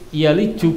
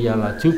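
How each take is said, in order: First: The vowel after the L is an 'i'. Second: The vowel after the L is an 'a'.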